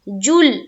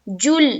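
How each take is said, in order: The two takes are said the same way.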